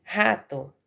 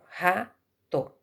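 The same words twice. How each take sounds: First: Said in the usual way. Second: "rato" slowed right down and broken into ra-to; teacher spelling out "rato" as ra-to for children; split into syllables. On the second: Shown as a demonstration. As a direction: say "rato" in two slow, separated beats. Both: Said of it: "e se separa assim".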